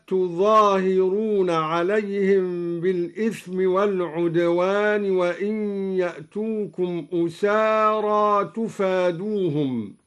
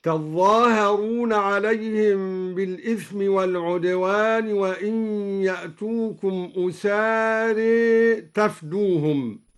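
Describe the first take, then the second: First: Said in the usual way. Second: تظاهرون with doubled ظ and long a, تفدوهم as "tafduhum"; al-Duri's reading. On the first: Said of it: "قرأ الدوري بفتح التاء وتشديد الظاء". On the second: Shown as a demonstration. Teacher demonstrating, تظاهرون as "tazzaaharoon", تفدوهم as "tafdoohum". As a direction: double the ظ in تظاهرون, end أسارى toward "e", say تفدوهم without alef. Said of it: "وتشديد الظاء ممدودة".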